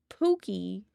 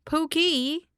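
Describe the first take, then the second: First: Pookie with a long oo and rising end; how she says Pookie. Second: Pookie said with the oo of Pooh Bear, high and rising. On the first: Asked by chat how she normally says it, drawn out Pookie. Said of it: "how you say it normally then". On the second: Explaining to chat how she pronounces Pookie, high Pooh Bear vowel. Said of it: "it's like Pooh Bear". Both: Shown as a demonstration.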